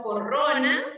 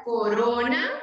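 First: Corrona with a strong trilled rr; wrong rolled r. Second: Corona with a single soft tapped r. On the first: Teacher shows children the wrong strong r in corrona. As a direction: roll the rr hard in corrona. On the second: Teacher models the correct soft r in corona. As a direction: tap the r once in corona. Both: Shown as a demonstration. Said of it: "no corrona".

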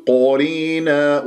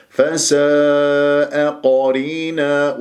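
First: قرينا distorted to "qoreena"; faulty lip-rounded ق in قرينا; wrong rounded qaf. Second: Slow chant, open "qaa" in قرينا; drawn-out فساء, heavy open قرينا; correct open qaf. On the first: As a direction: round the first vowel of قرينا to "o". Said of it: "ولا تقل". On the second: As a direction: recite فساء قرينا with long, unrounded vowels. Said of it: "ولا تقل قرينا". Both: Shown as a demonstration.

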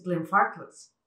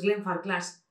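First: GLENFARCLAS as slow "glen-FAR-kls"; middle-syllable stress. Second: GLENFARCLAS as "glen-far-KLAS"; full "a" and weight on CLAS in GLENFARCLAS; wrong final stress. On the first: Shown as a demonstration. Teacher corrects it, "glen-FAR-kls". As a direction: hit FAR, swallow the last vowel of GLENFARCLAS. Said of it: "es Glenfarclas". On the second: Retold or imitated. Teacher rejects it, "glen-far-KLAS". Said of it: "no es Glenfarclas".

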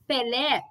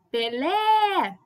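First: Said in the usual way. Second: Pelé with LÉ held long; called out, final syllable stretched. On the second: Shown as a demonstration. Teacher shows students the tonic syllable, calling Pelé with a long LÉ. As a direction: call out Pelé slowly, dragging the last syllable. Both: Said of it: "como se eu estivesse chamando a pessoa".

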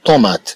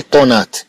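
First: Corrected طومات, an m in the middle; m pronounced as m. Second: Mispronounced طونات, an n in the middle; m misread as n. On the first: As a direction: say طومات with a clearly sounded m. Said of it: "بل نقول". (نطق صحيح بالميم في طومات) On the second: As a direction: say طونات with n replacing the m. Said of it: "لا نقول طونات". (نطق خاطئ بالنون في طونات) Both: Shown as a demonstration.

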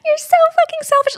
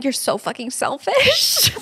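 First: Much higher, squeaky repeat of You're so fucking selfish; shrill mock whine. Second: Mock tearful whine. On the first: Repeating the boyfriend's text to her co-host, high squeaky mock whine. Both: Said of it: "him just replying".

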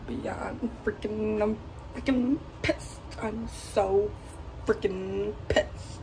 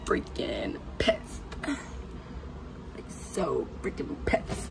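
First: High, slow, loud stretched-out complaint; drawn-out frustration. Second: Slow, low whispered grumble; whispered frustration. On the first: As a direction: stretch every word out, fed up. Venting about empty fridge. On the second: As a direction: hiss it under your breath, fed up. Hushed repeat of complaint. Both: Real, not acted.

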